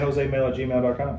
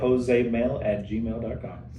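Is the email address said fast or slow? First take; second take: fast; slow. First: It is said very fast. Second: It is said slowly. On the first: The speaker calls it wrong. "only one person that is allowed to talk that fast" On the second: The speaker calls it right. "you need to slow that down"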